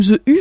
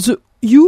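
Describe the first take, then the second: First: "The U" with U as the French vowel u; French-style "U" in "The U", lips rounded on an ee sound; alternative pronunciation. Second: "The U" with U as an English-style "oo"; U in "The U" said the English way, not as French u; alternative pronunciation. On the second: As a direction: say "The U" with U rhyming with "you". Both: Shown as a demonstration. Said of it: "je sais pas comment on prononce".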